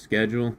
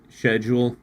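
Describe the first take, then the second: First: The word begins with a 'sk' sound. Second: The word begins with an 'sh' sound. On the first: This is the American way of saying it. "instead of schedule" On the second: This is the British way of saying it. "don't Brits say it that way? They say sh- schedule"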